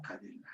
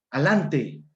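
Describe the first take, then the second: First: Said in the usual way. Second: ALANTE, the DE swallowed entirely; syncopated pronunciation. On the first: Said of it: "Palabra correcta". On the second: Shown as a demonstration. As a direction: say "Alante" as a-LAN-te. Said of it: "Palabra con síncopa".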